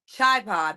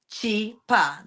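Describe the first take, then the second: First: The first syllable sounds like 'chai'. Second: The first syllable sounds like 'Chi' in Chicago. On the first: Another pair's pronunciation, tied to a different dance. "Benita and Ray have a collaboration and they use that that that pronunciation" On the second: Built from Chicago and Pennsylvania. "the first three letters of Chicago"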